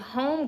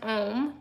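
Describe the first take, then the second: First: The word begins with an audible H sound. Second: The word begins with no H sound. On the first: It sounds like the English word for a house. "it's supposed to make you think home girls" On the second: It is the French word for man. "it's pronounced Homme because it's French. They don't pronounce the H"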